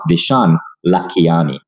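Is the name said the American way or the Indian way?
Indian. The name is said with an overemphasized Indian pronunciation. The speaker calls it wrong. "It's not Vishan Lakhiani"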